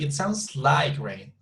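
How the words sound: The strongest stress falls on the word like. The speaker is giving an opinion. "emphasize on like, please"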